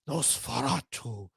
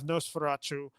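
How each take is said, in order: First: It is said in a put-on Nosferatu voice. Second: It is said in his normal voice.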